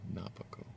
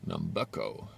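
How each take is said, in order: First: No m sound comes before the b. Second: An m sound comes before the b. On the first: The speaker calls it right. "Not Nam" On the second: The speaker calls it wrong. "Not Nam"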